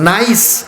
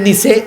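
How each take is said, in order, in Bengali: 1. শব্দটি 's' ধ্বনি দিয়ে শেষ হয়। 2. শব্দটি 'ch' ধ্বনি দিয়ে শেষ হয়।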